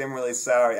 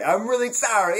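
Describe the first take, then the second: First: Said in the usual way. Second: Put-on higher and louder Brooklyn accent on "I'm really sorry"; a hammed-up Brooklyn wiseguy apology; Brooklyn tough guy. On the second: Mock apology to his match, hammed-up Brooklyn accent. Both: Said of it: "Vinny from Brooklyn".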